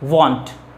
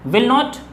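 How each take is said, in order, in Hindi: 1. ये शब्द जुड़कर एक संक्षिप्त शब्द बन जाते हैं। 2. दोनों शब्द पूरे और अलग-अलग बोले जाते हैं।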